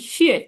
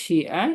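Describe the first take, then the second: First: The syllable is said with the fourth tone. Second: The syllable is said with the third tone. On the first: It means thanks. "চার নম্বর টোন শিয়ে" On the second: It means write. "তিন নম্বর টোন শিয়া"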